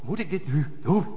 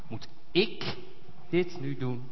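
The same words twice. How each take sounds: First: The stress falls on the word doen. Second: The stress falls on the word ik.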